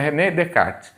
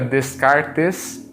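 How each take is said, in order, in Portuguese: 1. O S do meio é mudo. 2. O S do meio é pronunciado. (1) "em francês o S não se pronuncia, portanto a pronúncia correta é" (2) "Embora se escreva Descartes"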